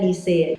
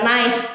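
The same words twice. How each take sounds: First: It sounds like the French city name Nice. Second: It sounds like the English word nice. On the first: The speaker calls it right. "karena ini nama kota, ... jadi dibacanya NICE" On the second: The speaker calls it wrong. "Jadi bukan NICE"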